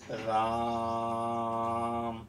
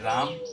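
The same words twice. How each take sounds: First: The vowel is stretched to triple length. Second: The vowel is held at normal length. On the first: "इसमें तिगुना समय लगता है" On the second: "इस प्रकार बोला जाएगा जैसे कि राम"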